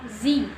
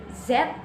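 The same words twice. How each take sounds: First: "Z" pronounced "zee", long open ee ending; name the letter "Z" as "zee". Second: "Z" pronounced "zed", ending in a D or T sound; name the letter "Z" as "zed"; Canadian zed. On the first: Student giving the form Canadians avoid, zee pronunciation. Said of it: "instead of Z". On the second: Student showing what Canadians say for the letter, Canadian zed. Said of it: "And then say Z instead of". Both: Shown as a demonstration.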